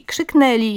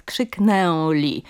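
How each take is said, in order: First: KRZYKNĘLI with plain oral e, as krzykneli; careful oral vowel. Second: KRZYKNĘLI slow, with a full nasal ę before l; overliteral nasal ę. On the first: Linguist shows the model form, oral e in "krzyknęli". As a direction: drop the nasality in "krzyknęli". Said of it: "jako samogłoski ustne". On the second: Linguist demonstrates the error, slow overliteral nasal ę in "krzyknęli". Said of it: "nadmiernie literowa wymowa". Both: Shown as a demonstration.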